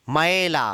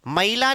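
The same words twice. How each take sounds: First: "मैला" with open ae, lower pitched; correct modern pronunciation. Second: "मैला" as ma-ee-la, gliding to ee; old-style "ma-ee-la" for मैला; wrong, old pronunciation. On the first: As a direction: say मैला as "mae-la", no ee glide. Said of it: "मैला नहीं". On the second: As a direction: say मैला with a split a-ee vowel. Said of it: "नहीं". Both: Shown as a demonstration.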